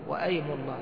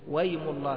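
First: A glottal stop is pronounced before "aym". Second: The glottal stop before "aym" is dropped. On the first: "يجوز أن تكون همزة قطع فتقول وأيم الله" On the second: "وهذا هو النطق الصحيح على عند الجمهور يعني اللغويين"

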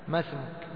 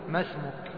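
Both takes have the same delivery.

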